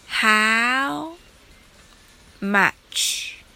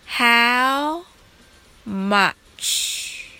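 The two takes are said the same way.

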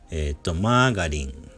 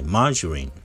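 First: The middle consonant is a hard g sound. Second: The middle consonant is a soft j sound. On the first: This is the Japanese loanword form. The speaker calls it wrong. "がじゃなくて" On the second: This is the English pronunciation. The speaker calls it right. "発音が英語では、マージュリン"

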